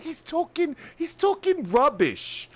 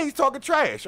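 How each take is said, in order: First: High, mock polite British complaint; politely indignant British impression; polite British Karen. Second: Said in the usual way. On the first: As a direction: imitate her British accent, pitched high, slowing at the end. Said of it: "she still kinda sounds polite". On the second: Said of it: "I get what you're trying to say".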